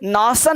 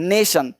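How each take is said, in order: First: The first vowel is an 'ah' sound. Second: The first vowel is an 'ay' sound. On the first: The speaker calls it wrong. "नासन नहीं" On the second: The speaker calls it right.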